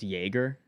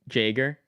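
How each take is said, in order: First: The name begins with a Y sound. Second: The name begins with a J sound. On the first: The speaker calls it right. "not a Y" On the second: The speaker calls it wrong. "I see a J"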